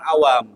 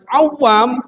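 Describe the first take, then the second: First: The w sound is short and single. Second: The w sound is held long and doubled. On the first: Common people. "tanpa ada tasydid itu artinya orang-orang awam" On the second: People who are skilled at diving. "orang-orang yang pandai menyelam itu"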